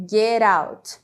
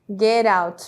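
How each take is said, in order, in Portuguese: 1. O T está ligado e soa como um R. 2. O T está ligado e soa como um R.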